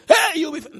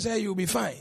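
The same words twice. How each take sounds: First: Loud, high shout of reassurance; screamed you'll be fine; mock scream. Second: Said in the usual way. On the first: Shown as a demonstration. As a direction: yell it like a frantic hype-up. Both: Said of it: "I can't scream saying that you'll be fine".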